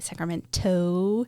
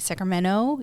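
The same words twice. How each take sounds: First: The T sound in the middle is pronounced. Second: The T sound in the middle is dropped. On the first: "you don't say" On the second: "you drop your T's, like you'd say"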